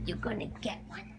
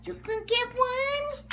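First: Fast teasing whisper; soft secret promise. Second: Excited dog-talk pitch; high sing-song. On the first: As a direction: hush it quickly to the dog. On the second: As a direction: lift it way up for the dog. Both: Acted. Teasing the dog with cookie.

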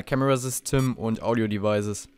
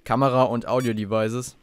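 First: German line with English words in an American accent. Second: Said in the usual way. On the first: Shown as a demonstration. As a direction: say Camera System like an American. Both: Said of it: "mit meinem amerikanischen Akzent hier".

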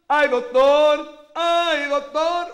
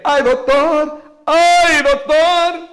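First: Sung, stretch "¡Ay, doctor!" out very slowly, high and loud; sung, hold each note long to show the timing; drawn-out sung refrain. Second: Sung, show how the refrain sits on the beat. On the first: Sung, host slowing the refrain down to teach the beat. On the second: Host showing the doctor where the beat falls, singing. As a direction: sing "¡Ay, doctor!" high and loud on the count. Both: Shown as a demonstration. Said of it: "Usted se estaba metiendo un compás".

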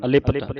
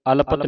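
First: ਅਲਿਪਤ as "a-li-pat"; short i after l. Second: ਅਲਪਤ as "al-pat", no i; wrong, vowel dropped. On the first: Teacher correcting students, ਅਲਿਪਤ with a clear "li". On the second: Teacher warning students of a misreading, ਅਲਪਤ without the i. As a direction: drop the vowel after l in ਅਲਪਤ. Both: Shown as a demonstration. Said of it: "ਅਲਪਤ ਨਹੀਂ ਪੜ੍ਹਨਾ".

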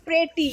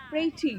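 First: প্রেটি, e as in bed; teacher demonstrating প্রেটি with an e vowel; প্রেটি with a clear e vowel. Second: প্রেটি with a vowel between i and e, said softer; soft demo of প্রেটি, vowel halfway between ee and e; teacher softly demonstrating প্রেটি with an in-between vowel. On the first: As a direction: say প্রেটি with an open e sound. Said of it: "আবার যদি এ উচ্চারণ করি". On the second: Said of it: "দুটোর মাঝখানে". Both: Shown as a demonstration.

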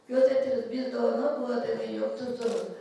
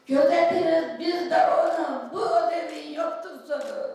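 First: Said in the usual way. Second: Gözetiriz called out loud and high; proud shout. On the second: Acted. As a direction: proclaim it to the hall. First take, proclaimed. (Gözetiriz yüksek sesle haykırarak)

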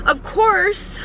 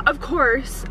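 First: High exasperated. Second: Said in the usual way. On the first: Real, not acted.

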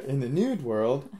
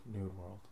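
First: Nude world said clearly as nude, slowly. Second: New world blurred into nude world; slurred new world. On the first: Shown as a demonstration. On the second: Real, not acted. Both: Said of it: "That sounded like nude world".

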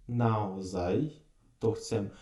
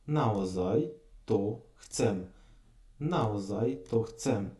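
First: "Наозай то chcem" slowed down; slow Slovak phrase. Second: "Наозай то chcem" slowed down, twice; slow Slovak phrase. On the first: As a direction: model "Наозай то chcem" slowly. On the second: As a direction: repeat "Наозай то chcem" slowly. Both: Shown as a demonstration. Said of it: "Таке слово дуже часто попадається".

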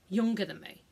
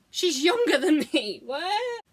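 First: Said in the usual way. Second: Higher, incredulous repeat; put-on astonishment, ending on a high questioning note; mock disbelief. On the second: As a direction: exclaim it as if it can't be true.

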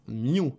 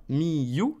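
First: "miu" fused as myou; no break inside "miu"; "miu" in a single short beat; one syllable. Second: "mi-you" in two slow beats; "mi-you" with both syllables full; two separate syllables. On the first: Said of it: "ça va faire miu". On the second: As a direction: split mi from you. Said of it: "Ça va pas faire mi-you". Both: Shown as a demonstration.

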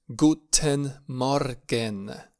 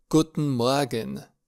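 First: "Guten Morgen" very slowly, with the r pronounced, MOR-gen; sounded R variant. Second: "Guten Morgen" with the r melted, MOA-gen; vowel-like R variant. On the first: Teacher gives beginners the other correct form, sounded R variant. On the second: Teacher gives beginners a morning greeting, vowel-like R variant. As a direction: soften the r in "Morgen" into a vowel, slowly. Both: Shown as a demonstration. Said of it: "Amândouă variante sunt corecte".

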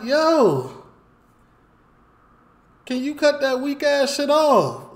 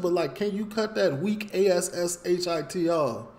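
First: Loud, high yell at the neighbor. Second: Said in the usual way. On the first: Retold or imitated. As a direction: shout it down from the balcony, high-pitched. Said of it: "I yell down". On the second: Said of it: "Like, just like that".

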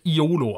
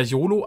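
First: "Iolo" as three syllables, I-o-lo; alternative pronunciation. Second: "Yolo" as two syllables, Yo-lo; habitual pronunciation. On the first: Player guesses the correct name, "Iolo" opening on I. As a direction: say "Iolo" with a separate opening I vowel. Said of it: "wird er Iolo ausgesprochen". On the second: Player names his usual way, "Yolo" with Y glide. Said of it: "ich sage immer Yolo". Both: Shown as a demonstration.

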